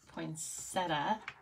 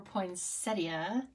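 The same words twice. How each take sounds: First: The word is said in a casual everyday way. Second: The word is said in a more refined way.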